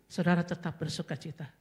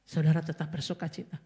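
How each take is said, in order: Both takes have the same delivery.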